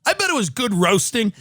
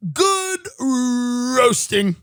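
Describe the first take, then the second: First: Said in the usual way. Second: GOOD and ROASTING stretched very long, rolling into ROASTING; drawn-out emphasis. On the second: Real, not acted. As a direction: savour "Good roasting" very slowly, each word drawn out. Savours the phrase on repeating it.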